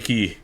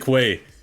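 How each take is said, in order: First: The word sounds like 'key', with no w sound. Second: The word sounds like 'kway', with a w sound. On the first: The speaker calls it wrong. "I will never say Key" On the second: The speaker calls it right. "I will always say Quay"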